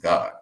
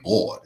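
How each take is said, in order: First: The word is said short and plainly. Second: The word is drawn out in a showy way.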